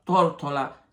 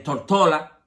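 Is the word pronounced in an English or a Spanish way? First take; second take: Spanish; English. First: It is pronounced the ordinary Spanish way. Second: It is pronounced the way English speakers say it.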